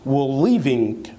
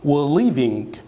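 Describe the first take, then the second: Both takes have the same delivery.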